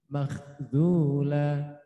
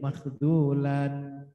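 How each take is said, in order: First: The word ends in a long 'a' sound. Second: The word ends in an 'an' sound. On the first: The speaker calls it right. "dibaca la" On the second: The speaker calls it wrong. "tidak boleh makhdulan"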